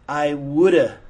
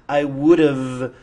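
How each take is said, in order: First: The word 'have' is reduced to 'uh'. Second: The word 'have' is said in full.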